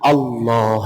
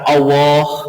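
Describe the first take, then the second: First: The l sound is held and doubled. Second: The l sound is short and single. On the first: The speaker calls it right. "lamnya dikasih tasdid" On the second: The speaker calls it wrong. "bukan Allah"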